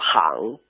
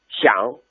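First: The word is pronounced like hang. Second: The word is pronounced like xiang. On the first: This is the original Sichuan dialect pronunciation. "巷子是行" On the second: This pronunciation has drifted toward Standard Mandarin. "更多人都把它说成了写、街、想"

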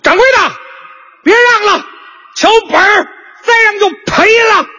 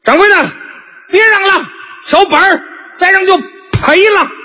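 First: It is said at a somewhat raised pitch. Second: It is said at a fairly low pitch.

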